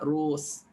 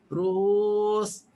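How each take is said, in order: First: The hamzah is dropped entirely from the word. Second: The hamzah is softened into a light glide. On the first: "Hazaf jadilah rus" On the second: "Tashil ruhus"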